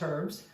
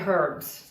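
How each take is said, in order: First: The word begins without an h sound. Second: The word begins with an h sound. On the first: This is the Canadian way of saying it. The speaker calls it wrong. "oh, sorry, in England we say herbs" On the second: This is the English way of saying it. The speaker calls it right. "In England, they pronounce the H"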